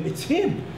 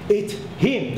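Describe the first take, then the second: First: Sudden jump way up in pitch; a startled cry of recognition; shocked recognition. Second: Said in the usual way. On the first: Real, not acted. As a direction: blurt it out in disbelief. Recognizing the man who kicked him.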